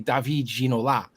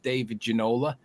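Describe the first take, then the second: First: The name is said with a French accent. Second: The name is said with an English accent. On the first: "you have that little bit of French twang" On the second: "we would pronounce that guy's name as"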